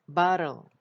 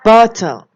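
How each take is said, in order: First: It is said in an American accent. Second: It is said in a British accent.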